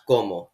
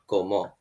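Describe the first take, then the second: First: The stress is on the first syllable. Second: The stress is on the second syllable. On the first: The speaker calls it right. "the first syllable is stressed and it's pronounced como" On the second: The speaker calls it wrong. "not como"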